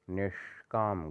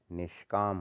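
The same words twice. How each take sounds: First: निष्काम split slowly as "nesh - kaam"; wrong heavy sh. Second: निष्काम joined, "nishkaam", light sh; lighter sibilant. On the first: Teacher showing the error, निष्काम slow with heavy sh. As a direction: hold a retroflex sh in निष्काम. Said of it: "गलत है". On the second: Teacher correcting it, निष्काम with light sibilant. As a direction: run निष्काम together lightly. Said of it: "होता है". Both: Shown as a demonstration.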